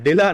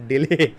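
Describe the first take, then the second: First: The word ends with an 'ah' vowel. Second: The word ends with an 'ay' vowel. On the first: The speaker calls it wrong. "डिला बोल दिया मैंने, डिला नहीं" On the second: The speaker calls it right.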